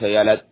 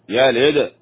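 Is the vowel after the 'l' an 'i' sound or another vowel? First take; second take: other vowel; i. First: The vowel after the 'l' is not 'i'. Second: The vowel after the 'l' is an 'i' sound. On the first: The speaker calls it wrong. "ليس يلد، يلد خطأ" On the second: The speaker calls it right. "يلد اللام مكسورة هنا"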